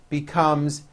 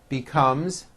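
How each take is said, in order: No difference in how they are said.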